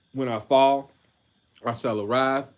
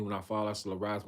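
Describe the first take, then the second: First: "When I fall, I shall arise" thrown out louder, like a battle cry; proclaimed. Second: "When I fall, I shall arise" run through softer and fast, under the breath; just skim "fall" and "arise" quietly; quick quiet reread. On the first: Preacher reading Micah aloud to his brothers, loud and fervent. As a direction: lift "fall" and "arise" with force. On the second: Preacher rereading the verse for himself, soft and quick. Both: Acted. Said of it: "I'm rereading that".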